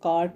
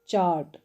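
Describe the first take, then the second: First: The word begins with a k sound. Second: The word begins with a ch sound. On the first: The speaker calls it wrong. "कार्ट नहीं पढ़ना है" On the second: The speaker calls it right. "ये चार्ट की sound है"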